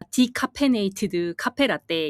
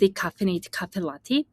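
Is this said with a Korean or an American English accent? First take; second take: Korean; American English. First: It is said with a Korean accent. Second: It is said with an American English accent. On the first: The cafe staff could not understand it. The speaker calls it wrong. "이거 한국식 발음으로 하니까 아무도 못 알아들었는데" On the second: The cafe staff understood it. The speaker calls it right. "그레이스 할머니랑 연습을 하면서"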